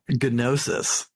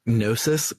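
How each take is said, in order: First: The first G is clearly pronounced. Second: The first G is silent. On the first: This is how the Japanese voice actors say it. "Silent G be damned" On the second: This is the usual English pronunciation. "with a silent G in English"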